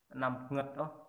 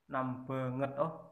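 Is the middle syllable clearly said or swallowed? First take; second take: swallowed; clearly said. First: Said fast and joined, the middle syllable swallowed. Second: Every syllable is said separately and clearly.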